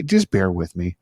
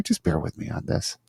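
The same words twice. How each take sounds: First: Said in the usual way. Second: Whispered aside, breath only. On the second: Real, not acted. Host asking audio listeners for patience, whispered. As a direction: let it drop to a whisper.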